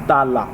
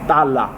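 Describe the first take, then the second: No difference in how they are said.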